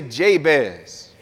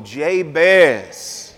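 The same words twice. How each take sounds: First: Said in the usual way. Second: Soulful, drawn-out Jabez. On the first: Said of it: "Say it with some soul". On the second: Shown as a demonstration. Preacher showing the congregation how to say Jabez, with soul. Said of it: "Say it with some soul in your soul".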